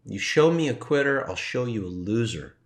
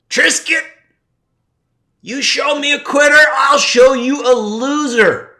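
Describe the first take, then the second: First: Said in the usual way. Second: High, loud shouting sensei; teacher's yell. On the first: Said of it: "heard his voice in a softer tone". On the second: Retold or imitated. Recalling his teacher screaming at him in his head, a full high shout. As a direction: bellow it like a drill-hall sensei. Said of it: "he did that yelling thing".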